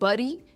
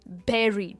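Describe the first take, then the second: First: The vowel sounds like the vowel in 'burn'. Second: The vowel sounds like the vowel in 'bed'. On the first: The speaker calls it wrong. "Not बरी" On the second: The speaker calls it right. "It is बेरी"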